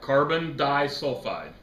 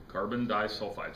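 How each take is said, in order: First: Slow, emphatic "disulfide", slightly louder; correcting stress. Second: Said in the usual way. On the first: Shown as a demonstration. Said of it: "Carbon, carbon sulfide".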